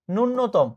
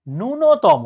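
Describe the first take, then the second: First: ন্যূনতম said with a plain n, nunotom; common wrong pronunciation. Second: ন্যূনতম said nunnotom, stressed clearly; correct pronunciation. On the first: Retold or imitated. Teacher shows the common mistaken ন্যূনতম. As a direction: imitate ন্যূনতম as most people say it. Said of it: "এরকম উচ্চারণ করে". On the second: Shown as a demonstration. Teacher gives the correct ন্যূনতম to students. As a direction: pronounce ন্যূনতম the proper way. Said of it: "এটার উচ্চারণ হচ্ছে".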